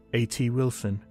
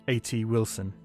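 Both takes have the same delivery.

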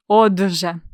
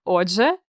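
First: "отже" stretched with the voiced consonant held; "отже" stronger, split before же; drawn-out consonant. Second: Said in the usual way. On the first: Shown as a demonstration. Teacher recalling forgotten spelling, "отже" drawn out. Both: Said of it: "як його писати".

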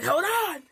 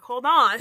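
First: High, loud repeated plea to halt; hammed-up high-pitched shout; mock alarm yell. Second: Loud, playful call to halt; mock alarm shout. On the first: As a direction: yell it high, as if fending off a crowd. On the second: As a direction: shout to stop an angry crowd in jest. Halts imagined objectors mid-rant.

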